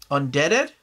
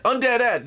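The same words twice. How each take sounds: First: "Undeaded" said with an extra -ed, like one word, rising as a question; mispronounced name. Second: "Undead Ed" as two clear words, high and triumphant; correct name at last. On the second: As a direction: land "Undead Ed" split into two words, pitched up. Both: Real, not acted. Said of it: "There, there, I said it".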